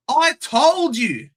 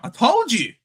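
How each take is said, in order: First: "I told you." higher, slower, stretched, "I" punched; emphatic gloat. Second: Said in the usual way. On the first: Real, not acted. Streamer rubbing his correct prediction in: emphatic gloat. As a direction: lean hard on "I" and drag it out.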